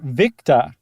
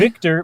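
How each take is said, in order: First: The word ends without an r sound. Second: The word ends with a clear r sound.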